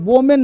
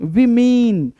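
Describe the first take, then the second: First: The first syllable sounds like 'wo'. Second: The first syllable sounds like 'wi'. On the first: The speaker calls it wrong. "वोमेन नहीं भाई साहब" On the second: The speaker calls it right.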